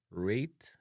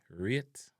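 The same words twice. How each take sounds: First: RATE with a long A, "rayt"; English-style "rayt"; English pronunciation. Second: RATE as "ryet", vowel like "ear"; Jamaican pronunciation. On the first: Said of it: "in a English". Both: Shown as a demonstration.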